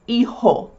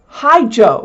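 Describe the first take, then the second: First: The middle consonant is a breathy h sound. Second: The middle consonant is an English j sound. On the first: The speaker calls it right. "the J is pronounced like an H" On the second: The speaker calls it wrong. "You don't say"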